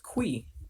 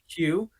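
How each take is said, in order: First: The word is said as 'kwee'. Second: The word is said as 'kyoo'. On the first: The speaker calls it wrong. "Heath pronounces Q as Quee" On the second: The speaker calls it right. "instead of saying Q"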